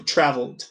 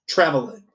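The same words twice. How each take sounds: First: Traveled tightened to "travld"; corrected ED ending. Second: Traveled with a vowel before the d, "travel-ed"; slipped ED ending. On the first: Teacher corrects own slip, short d ending. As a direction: drop the last vowel of traveled. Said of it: "Ou melhor, desculpa". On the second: Teacher slips while listing examples, extra ED syllable. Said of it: "Ou melhor, desculpa, traveled". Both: Shown as a demonstration.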